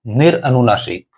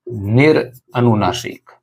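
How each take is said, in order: First: Said in the usual way. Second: निरअनुनासिक said slowly, each syllable stretched; slow, drawn out. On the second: Shown as a demonstration. Teacher dictating the term to students, slowly. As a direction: spell out निरअनुनासिक slowly for the class. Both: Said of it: "एक है".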